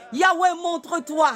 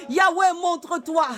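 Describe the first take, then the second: No difference in how they are said.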